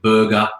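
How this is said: It is said in an Australian accent. "the way I'd say the word burger"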